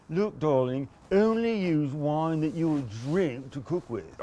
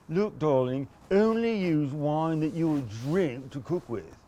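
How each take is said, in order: First: Repeated hammed-up aristocrat voice; snob impression. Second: A wine snob lecturing, darling; Thurston Howell the Third. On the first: Showing off his impression, mock aristocrat. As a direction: do the snob line once more. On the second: Retold or imitated. Wine snob scolding home cooks, mock aristocrat voice. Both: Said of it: "That was my Thurston Howell the third".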